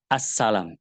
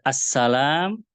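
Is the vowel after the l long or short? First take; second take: short; long. First: The vowel after the l is kept short. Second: The vowel after the l is held long. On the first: It means submission or obedience. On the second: It means a greeting of peace.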